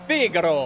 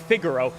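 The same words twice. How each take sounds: First: The name is said in a playful, exaggerated way. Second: The name is said in a plain, ordinary way. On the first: "it's just more fun to go Figaro" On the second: "You could say Figaro"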